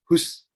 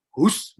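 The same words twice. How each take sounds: First: Said in the usual way. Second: A slightly higher, firmer "Hus"; higher shoo. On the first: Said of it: "dia nggak pergi". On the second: Shown as a demonstration. Preacher shooing a stubborn dog, pitched up. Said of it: "mungkin nadanya tinggi lagi".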